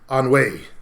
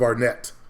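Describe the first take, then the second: First: The name ends in a vowel, no t. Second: The name ends with a clear t sound. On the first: This is the name's original French pronunciation. The speaker calls it right. "supposed to be pronounced like Anway" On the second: This is the anglicized pronunciation. The speaker calls it wrong. "instead of Arnett"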